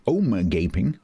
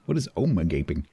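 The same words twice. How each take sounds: First: Rising, baffled repeat of omega gaping; puzzled echo. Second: Said in the usual way. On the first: Real, not acted. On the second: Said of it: "Omega, omega, oh, omega ping".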